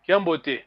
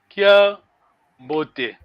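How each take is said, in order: First: It is said fast with no pause. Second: It is said with a pause between parts.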